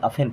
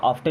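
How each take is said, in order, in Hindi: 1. t की आवाज़ छोड़ दी जाती है। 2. t की आवाज़ साफ़ बोली जाती है। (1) "यहाँ पे टी साइलेंट हो जाएगा" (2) "ऑफ्टन नहीं"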